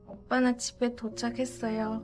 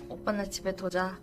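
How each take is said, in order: First: It is said cutely with a nasal tone. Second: It is said plainly, without a cute tone.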